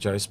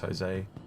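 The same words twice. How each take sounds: First: The name is said with an Australian pronunciation. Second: The name is said with a Spanish pronunciation. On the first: "In Australia, I'd say Jose" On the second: "I think it's Jose in Spanish"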